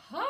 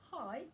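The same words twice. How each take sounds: First: Long, rising Hi with raised eyebrows; excited greeting. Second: Said in the usual way. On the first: Shown as a demonstration. Voice teacher demonstrating a warm-up sound, high excited hi. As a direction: stretch HI out, sweeping upward, almost singing. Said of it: "raise my eyebrows and go". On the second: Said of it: "I'm going to say the word hi".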